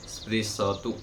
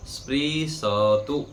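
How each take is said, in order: First: Said in the usual way. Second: स्पृशतु said very slowly, every syllable spelled out: spri-sha-tu; slow model pronunciation of स्पृशतु; careful pronunciation. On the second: Shown as a demonstration. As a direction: draw out स्पृशतु syllable by syllable, full vowel after श. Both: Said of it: "उच्चारण के समय भी ध्यान देंगे".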